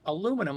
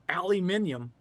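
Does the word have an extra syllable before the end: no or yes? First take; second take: no; yes. First: It ends in 'num' without an extra syllable. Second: It ends in 'nium' with an extra syllable. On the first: This is how the speaker normally says it. "how do you say it? I'm like, aluminum" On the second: This is how the locals say it. "they call it aluminium"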